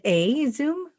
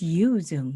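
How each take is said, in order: First: The name starts with an 'a' vowel. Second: The name starts with a 'you' sound. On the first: The speaker calls it wrong. "We have it wrong" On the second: The speaker calls it right. "it's a U, not an A"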